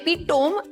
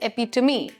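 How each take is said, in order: First: The word is read just as it is spelled. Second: The word is not read as it is spelled. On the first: The speaker calls it wrong. "इस word को ऐसे ही पढ़ दो जैसे spellings लिखे हैं, but सही नहीं है / It is an incorrect way" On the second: The speaker calls it right. "We pronounce this word as epitome. The correct pronunciation"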